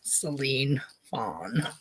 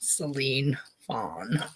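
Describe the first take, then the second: First: It is said with a put-on French accent. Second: The same.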